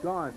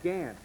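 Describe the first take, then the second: First: The vowel sounds like 'aw' in 'saw'. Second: The vowel sounds like 'a' in 'ant'. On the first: The speaker calls it wrong. "I've been pronouncing the quarterback's name for Booker as Gaunt" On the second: The speaker calls it right. "It is really Gant"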